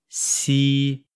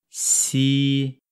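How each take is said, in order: Both takes have the same delivery.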